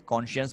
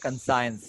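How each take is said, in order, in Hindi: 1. यह 'kon-shiyens' ऐसे बोला जाता है, 'sh' की आवाज़ के साथ। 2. यह 'kan-sains' ऐसे बोला जाता है, 's' की आवाज़ के साथ। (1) "कॉन्शियंस पढ़ते हैं उसको" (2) "ये गलत होता है"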